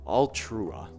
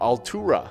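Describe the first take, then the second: First: An R sound follows directly after the T. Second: A vowel comes between the T and R. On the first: The speaker calls it wrong. "There's no R there after the T. I said Altrua" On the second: The speaker calls it right. "that's probably the best uh, pronunciation"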